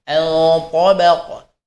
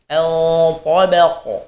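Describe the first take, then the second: The two takes are said the same way.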